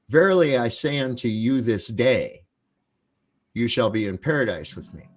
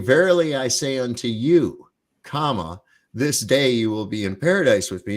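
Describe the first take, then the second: First: The pause comes after 'this day'. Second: The pause comes before 'this day'.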